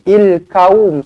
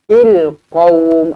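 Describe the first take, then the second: First: The word starts with a plain k sound. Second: The word starts with a deep back-throat q. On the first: The speaker calls it wrong. "dia dah jadi huruf kaf pula nanti" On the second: The speaker calls it right. "huruf qaf di sini"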